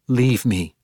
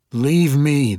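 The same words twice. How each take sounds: First: Curt, firm command; firm order. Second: Higher, louder demand. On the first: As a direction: order her out, firmly. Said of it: "she ordered Ivanel". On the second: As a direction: insist she leave, raised voice. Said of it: "the woman demanded". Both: A narrator's reading.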